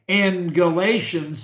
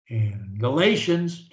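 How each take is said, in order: First: The phrase is said loudly. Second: The phrase is said quietly. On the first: "I'll say it loud" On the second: "I can lower the volume on it too"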